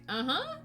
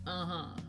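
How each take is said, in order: First: It is said in a warm, friendly tone. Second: It is said in a flat, dismissive tone. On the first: The thanks is kindly acknowledged. "is it like a friendly?" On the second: The exchange is curtly brushed off. "or is it just like"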